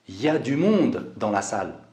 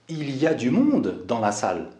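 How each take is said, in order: First: The phrase starts with shortened 'y a'. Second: The phrase starts with full 'il y a'. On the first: This is casual spoken speech. "À l'oral et dans un langage familier, on va dire ya" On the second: This is the standard form. "au lieu de dire"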